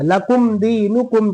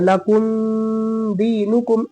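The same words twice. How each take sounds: First: The m is said clearly without nasal hum. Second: The m is held with a long nasal hum. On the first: The speaker calls it right. "जाहिर करके पढ़ेंगे" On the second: The speaker calls it wrong. "गुन्ना नहीं करेंगे, लकुम दीनुकुम इस तरह नहीं पढ़ेंगे"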